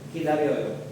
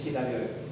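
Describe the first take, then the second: First: The word begins with a k sound. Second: The word begins with a sh sound. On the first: The speaker calls it right. "Tama, hindi sa S" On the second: The speaker calls it wrong. "Hindi sa"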